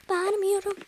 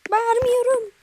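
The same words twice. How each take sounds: First: Said in the usual way. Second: A loud joking yell; ironic shout. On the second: Pretend. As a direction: shout Bağırmıyorum high and loud while denying shouting. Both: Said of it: "çok bağırmıyorum".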